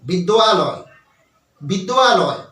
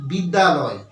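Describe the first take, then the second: First: বিদ্যালয় with a clear wa glide, bid-dwa-loy; correct with wa. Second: বিদ্যালয় said plainly as bid-da-loy, no wa sound; বিদ্যালয় flat, without the wa glide; wrong plain bidyaloy. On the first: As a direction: stress the wa in বিদ্যালয়. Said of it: "আমাদেরকে কি বলতে হবে". (সঠিক উচ্চারণ, বিদ্যালয়ে ওয়া স্পষ্ট) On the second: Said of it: "আমাদেরকে এটা বললে চলবে না". (ভুল উচ্চারণ, বিদ্যালয় সাধারণভাবে) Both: Shown as a demonstration.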